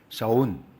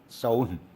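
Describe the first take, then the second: Both takes have the same delivery.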